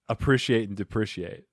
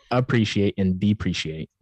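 First: "appreciate" and "depreciate" with short i, as "prish"; "a-PRISH-iate and de-PRISH-iate"; mispronounced. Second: "appreciate" and "depreciate" with long ee, as "pree"; "a-PREE-shee-ate and dee-PREE-shee-ate"; corrected pronunciation. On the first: Host asking co-host how to say it, mispronounced. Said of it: "Not like that". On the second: Co-host showing how he would say it, corrected pronunciation. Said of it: "I would say". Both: Shown as a demonstration.

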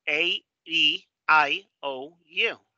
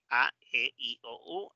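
First: A, E, I, O, U as "ay, ee, eye, oh, you"; gliding English A, E, I, O, U; English vowel names. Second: A, E, I, O, U as "ah, eh, ee, oh, oo"; Spanish A, E, I, O, U, fading at the end; Spanish vowels. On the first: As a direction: separate each English letter, A, E, I, O, U. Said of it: "En inglés es". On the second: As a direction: recite A, E, I, O, U in Spanish, one by one. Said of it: "En español es". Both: Shown as a demonstration.

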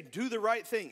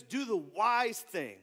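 First: Said in the usual way. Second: Slow, leaning on "wise"; stress on wise. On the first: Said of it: "it doesn't say". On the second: Shown as a demonstration. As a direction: hit the word "wise" slowly. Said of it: "It says".

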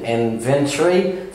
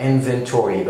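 First: INVENTORY with reduced ending, "inven-tree"; slow British inventory, "inven-tree"; British pronunciation. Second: INVENTORY with a full "-tory"; American inventory, "inven-tory"; American pronunciation. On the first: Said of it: "في البريتش إنجليش". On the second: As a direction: sound out the O-R-Y in inventory. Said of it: "بنتك على ال أو آر واي". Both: Shown as a demonstration.

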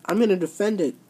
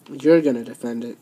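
First: Said in the usual way. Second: Mocking echo. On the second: Boss mocks the champion by echoing her words lower. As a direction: echo "You're gonna defend it" lower, in a mocking sing-song. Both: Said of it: "Are you just mocking me?".

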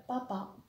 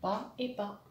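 First: Said in the usual way. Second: "Pas et pas" as two separate beats; split into syllables. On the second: Shown as a demonstration. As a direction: say each half apart in "Pas et pas". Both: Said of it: "Il y a deux syllabes dans papa".

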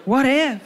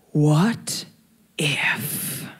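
First: Said in the usual way. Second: Low, breathy whisper of temptation; tempting whisper. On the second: Retold or imitated. The second voice in her head tempts her, low whisper. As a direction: whisper it like a devil on the shoulder. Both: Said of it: "the second voice went".

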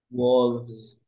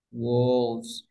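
First: Wolves said firmly, stressed with a clear v; teacher modelling the plural wolves; model plural. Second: Said in the usual way. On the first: Shown as a demonstration. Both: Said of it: "diré".

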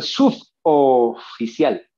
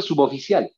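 First: "suboficial" broken slowly after "sub"; wrongly split word. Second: Said in the usual way. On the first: Shown as a demonstration. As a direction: chop "suboficial" into sub, then oficial. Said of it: "No, voy a llamar al suboficial". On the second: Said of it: "porque así hablamos".

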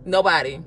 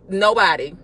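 The two takes are said the same way.

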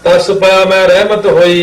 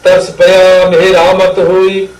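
First: ਰਹਿਮਤ with short reh-mat vowels; wrong pronunciation. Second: ਮੇਰਾ ਮਤ slow, full long vowels meh-raa-mat; correct pronunciation. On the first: Retold or imitated. Teacher imitating the common misreading, ਰਹਿਮਤ said short. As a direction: say ਮੈਂ ਰਹਿਮਤ as everyday reh-mat, no long raa. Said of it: "ਹਰ ਜਗ੍ਹਾ ਹੀ ਗਲਤ ਹੁੰਦਾ". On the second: Shown as a demonstration. Teacher showing the line everyone gets wrong, ਮੇਰਾ ਮਤ slowly sounded out. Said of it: "ਤਾਂ ਆਹ ਸਾਰੇ ਪਾਠ ਹਰ ਜਗ੍ਹਾ ਹੀ ਗਲਤ".

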